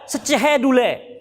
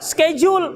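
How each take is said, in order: First: It is read the way Indonesians read letters. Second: It is read the way English speakers read letters. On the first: "Kita membaca schedule" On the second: "Mereka membaca schedule"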